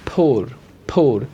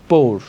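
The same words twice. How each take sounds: First: "poor" as "phor", falling; correct aspirated P. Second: "poor" with a hard, breathless P, "por"; wrong unaspirated P. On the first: Teacher giving the corrected word, aspirated "poor". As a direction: puff air on the P of "poor". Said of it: "it will be". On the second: Teacher showing the mistake to avoid, unaspirated "poor". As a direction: say "poor" without any puff. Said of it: "not poor". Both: Shown as a demonstration.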